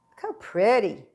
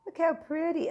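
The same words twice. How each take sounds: First: Said in the usual way. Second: High cooing look how pretty. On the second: Pretend. Admiring the tart.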